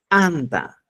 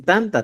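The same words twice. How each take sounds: First: ANTA begun with a popped ejective t; Cusco pronunciation. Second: TANTA with a plain, unexploded t; Apurímac pronunciation. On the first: Teacher contrasting Cusco with Apurímac, explosive ANTA. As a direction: burst the t sharply into ANTA. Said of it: "Pero en Cusco decimos anta". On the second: Teacher quoting Apurímac's word for bread, plain TANTA. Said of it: "en Apurímac dicen tanta". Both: Shown as a demonstration.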